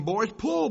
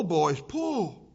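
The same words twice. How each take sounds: First: Loud, rising call to the rowers; urging call. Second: Loud urging with a falling close; urging call. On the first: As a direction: push them on, louder. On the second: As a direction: settle the command, still loud. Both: Acted. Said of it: "he kept encouraging them".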